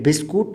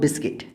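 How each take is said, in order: First: The second syllable sounds like kut. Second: The second syllable sounds like kit. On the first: The speaker calls it wrong. "ये बिस्कुट नहीं है" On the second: The speaker calls it right. "इसे कहना है आपको बिस्किट"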